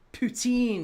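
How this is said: It is said with a Quebec French twang.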